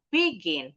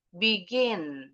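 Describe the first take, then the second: First: The stress is on the first syllable. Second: The stress is on the second syllable. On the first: The speaker calls it wrong. "Jadi bukan begin, bukan" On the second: The speaker calls it right. "intonasinya lebih tinggi tuh di suku kata kedua"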